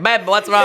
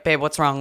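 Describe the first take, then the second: First: Louder, higher mock British accent; attempted British accent. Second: Said in the usual way. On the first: Imitating assistant coach before the race, attempted British accent. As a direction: have a rough go at sounding British. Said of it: "Or whatever British accent is". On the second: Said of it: "he doesn't, like".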